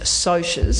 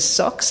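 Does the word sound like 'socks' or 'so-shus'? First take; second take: so-shus; socks. First: The word is said like 'so-shus'. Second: The word is said like 'socks'. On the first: This is the intended pronunciation. "it's meant to be pronounced socias" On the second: This is how most readers say it. "pronounce it in our heads as socks"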